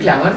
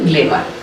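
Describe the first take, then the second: First: The first vowel is an open 'a' sound. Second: The first vowel is an 'e' sound. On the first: The speaker calls it right. "গ্ল্যামার বলতে পারতেন না" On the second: The speaker calls it wrong. "বলতেন গ্লেমার"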